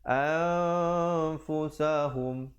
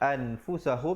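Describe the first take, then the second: First: The n is hidden in a nasal sound. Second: The n is said clearly and fully. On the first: "di situ hukum ikhfa"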